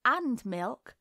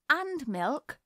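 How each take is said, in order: First: Said in the usual way. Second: Higher, prim little hostess voice; imitating her mother. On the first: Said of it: "in that tone". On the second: A narrator's reading. Little girl pouring tea mimics her mother, prim mock-genteel. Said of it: "imitating her mother".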